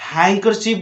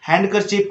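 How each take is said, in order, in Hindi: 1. n के बाद D की ध्वनि नहीं बोली जाती। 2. n के बाद D की ध्वनि बोली जाती है। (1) "हैंकरचीफ बोलना है" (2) "जो कि बिल्कुल गलत है"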